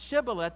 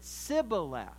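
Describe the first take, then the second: First: The word begins with a sh sound. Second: The word begins with a plain s sound. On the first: "if they were to pronounce Shibboleth" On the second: "they pronounced it Sibboleth without the SH"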